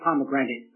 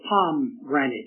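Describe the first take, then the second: First: It is said as it is spelled. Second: It is said like 'palm granite'. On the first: The speaker calls it wrong. "It looks like pomegranate" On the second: The speaker calls it right. "it's called palm granite"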